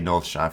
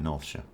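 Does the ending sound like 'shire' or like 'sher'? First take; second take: shire; sher. First: The ending is said fully, like 'shire'. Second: The ending is reduced, like 'sher'.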